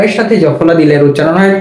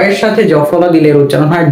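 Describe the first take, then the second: No difference in how they are said.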